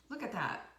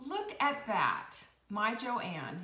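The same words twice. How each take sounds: First: Said in the usual way. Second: Delighted. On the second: Real, not acted. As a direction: savour the discovery out loud. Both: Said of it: "reacting to comment".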